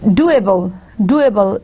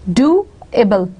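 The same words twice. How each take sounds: First: Said in the usual way. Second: "Doable" split in two, do, then able; syllable by syllable. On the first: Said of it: "this is the way when we pronounce it". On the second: Shown as a demonstration. Teacher showing first and second syllable, "Doable" broken in two. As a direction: say "Doable" with a gap after "do". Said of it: "this is the second syllable".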